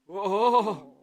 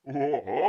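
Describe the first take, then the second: First: It is said in a normal voice. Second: It is said in a deeper voice.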